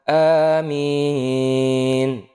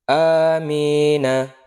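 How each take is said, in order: First: The final vowel is dropped, ending on a consonant. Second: The word ends with a final vowel. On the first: The reader stops at the end of the verse. "di akhir ayat atau di berhenti ... maka amin. Mati" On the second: The word continues into the rest of the sentence. "di tengah-tengah kalimat disebut Amina"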